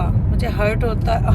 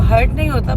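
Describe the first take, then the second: First: Said in the usual way. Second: नहीं hit louder, falling; stress on नहीं. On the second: Real, not acted. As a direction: correct herself by leaning on नहीं. (नहीं पर ज़ोर देकर)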